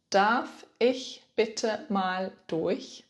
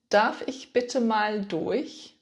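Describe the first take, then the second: First: Very slow, deliberate repeat; even slower repeat. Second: Slow, careful teaching model; slow model phrase. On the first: Teacher repeats the phrase even slower for beginners. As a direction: stretch every word for the learner. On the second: Teacher models the phrase slowly for beginners. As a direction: spell it out slowly for the learner. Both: Shown as a demonstration. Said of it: "In German, you can say".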